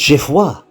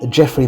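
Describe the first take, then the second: First: The name is pronounced in a French way. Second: The name is pronounced in an English way. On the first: "I'm often using the French terms rather than the English" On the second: "We might call them Geoffrey and Henry nowadays"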